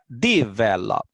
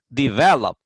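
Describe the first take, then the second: First: The stress is on the first syllable. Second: The stress is on the second syllable. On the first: The speaker calls it wrong. "Si la pongo en la primera sílaba diría develop" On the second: The speaker calls it right. "Pero la verdadera pronunciación del verbo es develop. En la segunda sílaba tiene eh, la acentuación fuerte"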